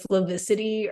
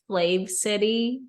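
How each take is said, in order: First: The name is run together as one word. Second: The name is said as two separate words. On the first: The speaker calls it wrong. "I've just been reading it as like Flavicity" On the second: The speaker calls it right. "I realized I think it's Flav City"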